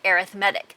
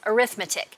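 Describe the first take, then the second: First: It is said with the adjective pronunciation. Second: It is said with the noun pronunciation. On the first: The word is used as an adjective. "if it's used as an adjective, ... we pronounce it arithmetic" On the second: The word is used as a noun. "when used as a noun, we pronounce arithmetic"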